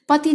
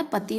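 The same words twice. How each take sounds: First: पति said with its final I altered in length; wrong final vowel. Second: Said in the usual way. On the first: Shown as a demonstration. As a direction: offer पति as the faulty form. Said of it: "नहीं होता है". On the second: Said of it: "पति होता है".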